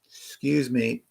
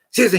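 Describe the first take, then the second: First: It is said once in a slow, calm manner. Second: It is said rapidly and urgently, repeated over. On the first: The speaker waits politely for an opening. The speaker calls it right. "real calm manner" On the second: The speaker is interrupting impatiently. The speaker calls it wrong. "ten times in a row rapidly"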